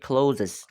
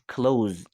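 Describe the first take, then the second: First: The word is said with two syllables. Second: The word is said with one syllable. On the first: The speaker calls it wrong. "mispronounce this word like a closes" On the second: The speaker calls it right. "pronounced close"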